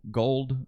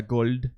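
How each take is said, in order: First: Said in the usual way. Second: Gold with a light, clear L instead of a dark one; gold said Jamaican style with a clear L. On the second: Shown as a demonstration. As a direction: say gold with a bright front L. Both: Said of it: "eles vão virar clear L's".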